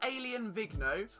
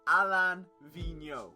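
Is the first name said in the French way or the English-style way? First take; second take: English-style; French. First: The first name sounds like the English word alien. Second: The first name is said the French way. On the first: The speaker calls it wrong. "Not Alien Vigneault" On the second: The speaker calls it right. "the correct pronunciation is Alain Vigneault"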